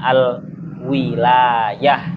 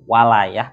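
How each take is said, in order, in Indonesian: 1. Vokal pertama adalah bunyi i. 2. Vokal pertama adalah bunyi a. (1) "menggunakan kasrohnya ... wawu" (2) "menggunakan fathahnya wawu"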